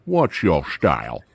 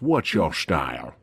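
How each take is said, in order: First: Low, slow, deadpan movie line; low movie quote. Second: Low, slow, deadpan movie line; movie villain quote. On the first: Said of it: "Way of the Dragon". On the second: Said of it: "when the guy goes". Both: Retold or imitated. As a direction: drop low and slow like the film.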